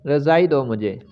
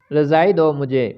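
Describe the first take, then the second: No difference in how they are said.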